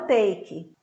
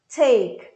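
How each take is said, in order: First: The T is plain and brief, without hiss. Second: The T has a hissing, breathy release. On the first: The speaker calls it wrong. "e não take" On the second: The speaker calls it right. "É um T com um som de S"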